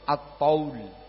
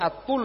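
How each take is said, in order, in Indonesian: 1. Vokalnya diftong 'au'. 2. Vokalnya bunyi 'u' biasa. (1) "At-Taul. Dengan Ta'at-Taul" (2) "Jangan dibaca At-Tul ya"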